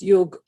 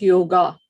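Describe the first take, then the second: First: The word ends on the g sound. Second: The word ends with a vowel after g. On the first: The speaker calls it right. "It is yog. That's the Indian accent" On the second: The speaker calls it wrong. "people call it yoga, but it is not yoga"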